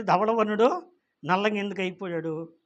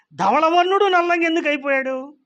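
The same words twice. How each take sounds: First: Said in the usual way. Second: Higher and louder, pressing the question. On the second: Real, not acted. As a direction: hit నల్లంగా hard and high. Question repeated, first loud.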